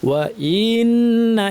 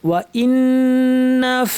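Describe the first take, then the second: First: The vowel before the n is drawn out long. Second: The vowel before the n is kept short. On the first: The speaker calls it wrong. "এভাবে পড়ে থাকে ই ই এভাবে টেনে দেন হ্যাঁ এটা ভুল" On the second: The speaker calls it right. "এখানে টান নাই ইন হামজা গিয়ে সরাসরি নুনকে ধরবে"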